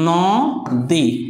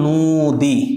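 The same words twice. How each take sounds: First: The first vowel sounds like an open 'aw'. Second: The first vowel sounds like a closed 'oh'. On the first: "আমি যদি বলি এই নদী" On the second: "আসলে এটার উচ্চারণ হবে নদী"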